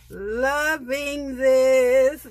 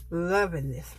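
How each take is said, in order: First: Very slow, stretched, louder and higher; drawn-out delight. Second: Said in the usual way. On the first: Real, not acted. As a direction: savor each word in delight. Repeats phrase, drawn out and loud.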